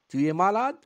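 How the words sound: The voice rises at the end of the phrase. It asks a question. "L'intonation change. Elle monte en fin de phrase"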